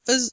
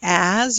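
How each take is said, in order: First: It is said with a weak schwa vowel. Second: It is said with a full vowel. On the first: "you may say uz" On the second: "Instead of saying as"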